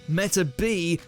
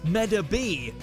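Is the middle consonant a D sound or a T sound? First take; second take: T; D. First: The middle consonant is a T sound. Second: The middle consonant is a D sound. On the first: The speaker calls it right. "Turns out the D is actually a T. Meta B is the correct way to pronounce it" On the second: The speaker calls it wrong. "what do you mean the name of Icky's Medabot isn't Medabee?"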